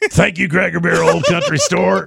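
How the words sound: It is said in a put-on liberal voice.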